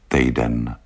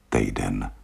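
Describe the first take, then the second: First: Sad. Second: Softer, sinking repeat; a quiet, resigned echo; sad. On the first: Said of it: "řekl smutně". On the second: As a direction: let the word sink, softer. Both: Acted.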